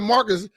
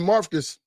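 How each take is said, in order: First: The name is said without a V sound. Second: The name is said with a V sound. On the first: The speaker calls it wrong. "Most call him, call him Marcus" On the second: The speaker calls it right. "nobody called him Marvcus"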